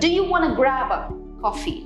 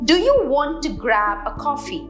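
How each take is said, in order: First: The words want and to blend into wanna. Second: The words want and to are said separately.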